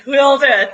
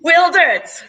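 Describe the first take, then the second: First: Said in the usual way. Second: Loud, excited promise; excited shout. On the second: Real, not acted. Promises a showstopper finale.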